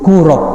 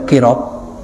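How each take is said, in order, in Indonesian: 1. Vokal pertama adalah bunyi 'u'. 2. Vokal pertama adalah bunyi 'i'. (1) "dengan dibaca domah qafnya" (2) "wa kasriha, boleh kirab"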